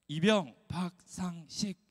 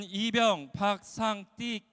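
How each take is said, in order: First: Crisp slow soldier's reply with 이병 박상식 clearly pronounced; military reply. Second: 박상띡 with the s of 식 turned into a hard tt, said slowly and louder; nervous lisping private says 박상띡, 띡 with tense t. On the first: Shown as a demonstration. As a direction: answer like a private reporting in, 식 said with a clean s. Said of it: "이렇게 대답해야 합니다". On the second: Retold or imitated. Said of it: "시옷 발음이 잘 안 되어 디귿 발음으로 하는".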